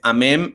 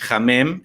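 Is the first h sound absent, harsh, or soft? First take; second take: absent; harsh. First: The word starts with no h sound. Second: The word starts with a harsh, j-like h. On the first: "No es ni la H totalmente muda" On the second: "ni la H que suena casi como J"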